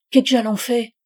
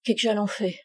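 First: Peasant bishop repeating. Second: Husband echoing quietly. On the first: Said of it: "L'évêque répéta". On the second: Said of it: "il dit à son tour". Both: A narrator's reading.

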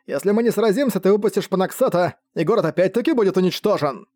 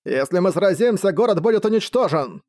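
First: Raised, ringing call across the field; magically amplified call. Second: Magically amplified call. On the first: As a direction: call out high to the enemy. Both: Acted. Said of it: "усиленный магией голос Джернака".

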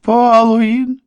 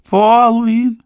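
First: Высокий отчаянный вопль; вопи имя во весь голос. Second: Высокий отчаянный вопль, повтор; снова вопи имя во весь голос. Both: A narrator's reading. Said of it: "завопил Морган". (отчаянный высокий вопль)

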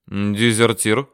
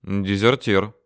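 First: ДЕЗЕРТИР drawn out with a rising end; questioning. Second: ДЕЗЕРТИР stated with a falling end; confirming. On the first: Father questions the man on the straw, questioning. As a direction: ask ДЕЗЕРТИР as a slow question. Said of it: "спросил отец". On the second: Man answers the father's question, confirming. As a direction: confirm ДЕЗЕРТИР, letting the tone drop. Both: A narrator's reading.

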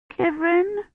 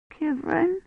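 First: Put-on very high little child's cry. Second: Put-on high, soft quavering child; small, timid questioning call; quavering little voice. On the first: Found child flings herself at rescuer, crying out. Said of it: "she cried". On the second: Hiding child calls to her rescuer, quavering. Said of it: "a quavering little voice said". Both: A narrator's reading.

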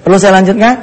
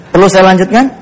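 Both takes have the same delivery.

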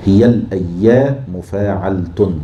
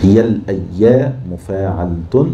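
First: هي الأيام مفاعلة said slowly to the beat; slow teacher scanning; metre scanning. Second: هي الأيام مفاعلة said slowly to the beat; slow repeated scanning; metre scanning. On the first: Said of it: "نفكها بيائين سكون وحركة". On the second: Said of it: "وممكن تحولها مفاعيل". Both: Shown as a demonstration.

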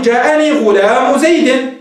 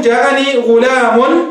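First: "غلام" ending in bare -u; "غلام" said ghulaamu, no tanween; tanween dropped. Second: "غلام" ending in a clear -un; "غلام" drawn out as ghulaamun; tanween pronounced. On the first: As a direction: slowly link "غلام" to "زيد" without an n. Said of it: "فتحذف التنوين". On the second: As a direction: slowly sound the n-ending on "غلام". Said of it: "فتنون". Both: Shown as a demonstration.

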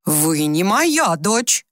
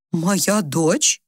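First: Very slow, each word of "Вы не моя дочь" separate; distinct, firm denial. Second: Questioning rise on "Моя дочь"; doubtful question. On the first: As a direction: stretch out "моя" in a clear statement. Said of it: "чётко произнесла она". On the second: Mother questions, frowning, not recognising. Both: A narrator's reading.

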